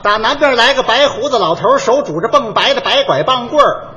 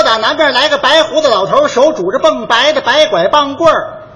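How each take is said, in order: First: 绕口令示范，字字清楚; 像教人一样把绕口令念出来; 念绕口令. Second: 略提高声调，更卖力地重念; 一字一字清楚地示范给他学; 再念一遍绕口令. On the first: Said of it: "那我随便跟你说一个". (清清楚楚念一段绕口令) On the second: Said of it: "再说一遍". (提高嗓门重念绕口令) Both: Shown as a demonstration.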